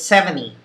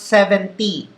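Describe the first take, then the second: First: It is said in an English accent. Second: It is said in a Taglish accent. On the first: The speaker calls it right. "It's seventy" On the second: The speaker calls it wrong. "it's not seventy"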